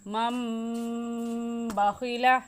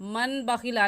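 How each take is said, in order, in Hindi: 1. b से पहले एक नासिकीकृत m ध्वनि आती है। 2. b से पहले एक सादा n ध्वनि आती है। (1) "बल्कि मम बाखिला" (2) "मन बाखिला नहीं कहेंगे"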